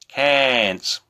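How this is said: It is said in an American accent. "somebody with a different accent, could be American, Irish, they're likely to say"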